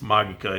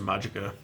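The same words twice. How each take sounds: First: It is said with a Latin pronunciation. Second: It is said with an anglicized pronunciation. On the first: This is the proper Latin form. "if you say it in Latin" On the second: This is how the speaker's group always said it. "that's how we always said it"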